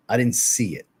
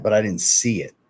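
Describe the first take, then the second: First: Didn't leaned on, falling at the end; stress on DIDN'T. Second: Said in the usual way. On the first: Real, not acted. Telling the chat he never saw the clip, stress on didn't. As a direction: press hard on "didn't".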